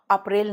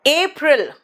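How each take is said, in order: First: अप्रैल as "up-rail"; unstressed short "a" opening अप्रैल; Hindi-style mispronunciation. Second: अप्रैल as "AY-pril", first syllable stressed; higher, stressed "ay" opening अप्रैल; English pronunciation. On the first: (अप्रैल का देसी उच्चारण, "अ" से) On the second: (अप्रैल को अंग्रेज़ी में "एप्रिल") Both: Shown as a demonstration. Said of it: "अप्रैल नहीं".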